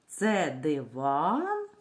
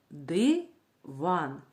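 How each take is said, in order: First: Slow question, диван stretched and rising on ВАН; drawn-out question stressing the last syllable of диван. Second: Диван split as ди, pause, ван; syllable-by-syllable teacher demo of диван. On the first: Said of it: "питальний тон". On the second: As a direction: break диван into two even, separate syllables. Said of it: "Давайте вимовимо слово по складам". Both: Shown as a demonstration.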